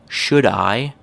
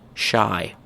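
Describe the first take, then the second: First: Both words are said fully and separately. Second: The words are squeezed into one syllable. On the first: "the full form" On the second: "becomes shy"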